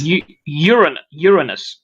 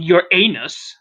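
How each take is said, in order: First: Uranus broken up, then whole: YUR-uh-nus; teaching the pronunciation. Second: Uranus slowly as your-AY-nus; wrong pronunciation. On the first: Friend answering how it is pronounced, Uranus as YUR-uh-nus. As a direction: model Uranus with stress on the first syllable. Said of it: "how do you pronounce it?". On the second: Friend showing co-host what to avoid, Uranus slowly as your-AY-nus. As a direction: split Uranus like "your anus", long stressed AY. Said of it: "Not Uranus". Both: Shown as a demonstration.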